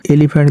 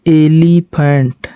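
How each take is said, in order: First: Said in the usual way. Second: elephant drawn out very slowly, syllable by syllable; a teacher spelling out elephant at crawling pace; slow demonstration. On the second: Shown as a demonstration. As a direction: stretch elephant out slowly so pupils hear each sound. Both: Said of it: "elephant, देखिए".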